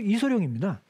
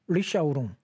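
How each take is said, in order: First: The name is said with the Korean reading. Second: The name is said with the Mandarin reading. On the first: Listeners recognize who it is. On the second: Listeners may not recognize who it is.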